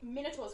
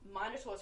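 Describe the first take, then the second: First: Minotaur is pronounced the Australian English way. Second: Minotaur is pronounced the British English way. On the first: "Minotaur's correct for Australian English" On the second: "Minotaur's correct for British English"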